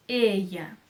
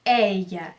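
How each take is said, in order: First: "ella" with a closed ay-like E, "Ê-ya". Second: "ella" with an open eh, "É-ya"; wrong open E. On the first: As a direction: say "ella" slowly on a narrow first E. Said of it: "tem o som fechado". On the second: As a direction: stretch "ella" on a wide-open first E. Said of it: "mas nunca é". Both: Shown as a demonstration.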